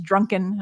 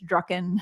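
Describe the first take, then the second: First: It has an n sound before the k. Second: It has no n sound before the k. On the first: The speaker calls it wrong. "Usually people think it's drunken" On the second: The speaker calls it right. "I'm like, it's Drucken"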